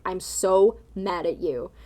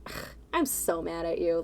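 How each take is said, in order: First: Slow, firm, genuinely mad; serious anger. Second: Soft, playful "Ugh", joking annoyance; mock-annoyed and lighthearted; not serious. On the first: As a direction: say it flat and slow like you mean it. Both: Shown as a demonstration. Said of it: "it doesn't sound as serious as".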